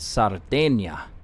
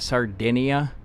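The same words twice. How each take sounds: First: It is said with the local pronunciation. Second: It is said with an American pronunciation. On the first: "these guys pronounce it Sardinia" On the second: "Americans pronounce it and spell it Sardinia"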